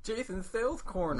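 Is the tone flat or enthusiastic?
enthusiastic. It is said with more enthusiasm.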